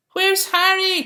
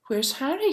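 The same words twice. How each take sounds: First: High, loud calling out; booming search call. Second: Said in the usual way. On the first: A narrator's reading. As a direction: call across the beach for Harry. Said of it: "called the man".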